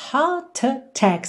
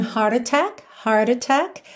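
First: British accent, heart attack with no R sound. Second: American accent, heart attack with a curled R. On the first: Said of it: "Super British again". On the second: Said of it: "No inglês americano". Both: Shown as a demonstration.

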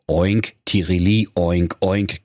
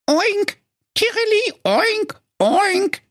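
First: Said in the usual way. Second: Very high squealing oinks; pig-bird calling. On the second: Acted. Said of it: "rief in ihrer Not". (sehr hohes, quiekendes Oinken in Not)

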